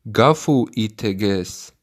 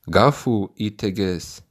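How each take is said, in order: Both takes have the same delivery.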